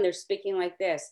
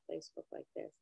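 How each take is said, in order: First: It is said loudly and with force. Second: It is said softly and quietly.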